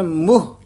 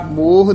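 First: ਮੋਹ as short "muh", with u; correct pronunciation. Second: ਮੋਹ with a long o, "moh"; wrong pronunciation. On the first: Teacher gives the word meaning face, ਮੋਹ as "muh". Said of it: "ਇਹ ਹੈ ਮੋਹ". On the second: Teacher warns learners off this reading, ਮੋਹ as "moh". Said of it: "ਮੋਹ ਨਹੀਂ ਕਹਿਣਾ". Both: Shown as a demonstration.

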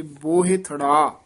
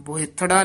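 First: "ਬੋਹਿਥੜਾ" with a slight break before "ੜਾ"; measured, dashed "ਬੋਹਿਥੜਾ"; split pronunciation. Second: "ਬੋਹਿਥੜਾ" quick, with no break before "ੜਾ"; fast, joined "ਬੋਹਿਥੜਾ"; wrong run-together pronunciation. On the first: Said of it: "dash ਦੇ ਕੇ ਉਚਾਰਨ ਕਰਨਾ". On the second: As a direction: rush "ਬੋਹਿਥੜਾ" into one block. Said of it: "ਬੋਹਿਥੜਾ ਨਹੀਂ ਕਹਿਣਾ". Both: Shown as a demonstration.

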